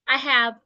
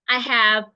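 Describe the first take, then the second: No difference in how they are said.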